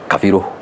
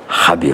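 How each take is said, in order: First: The name has an f sound after ka. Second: The name begins with an h sound. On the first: This is how the central region says it. "in Central they say Kafiru" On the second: This is how the western region says it. "in Western is Habiru"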